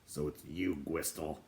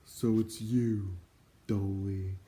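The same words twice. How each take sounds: First: Lightly voiced dwarf, lower and softer; a hint of a grumpy dwarf; dwarf greeting an old acquaintance, lightly voiced; gruff dwarf. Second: Slow, mournful greeting; a hint of a weary doorkeeper; sad voice. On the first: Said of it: "he said". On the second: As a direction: sigh the words out sadly. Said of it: "a sad voice replied". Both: A narrator's reading.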